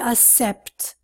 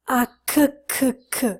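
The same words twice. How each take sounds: First: The word has no k sound. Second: The word has a k sound. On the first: The speaker calls it wrong. "They say accept. Wrong" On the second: The speaker calls it right. "The pronunciation is k, k"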